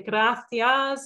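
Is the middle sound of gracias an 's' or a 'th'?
th. The middle consonant is a lisped 'th' sound. This is how people in Spain say it. "the Spaniards actually say gracias"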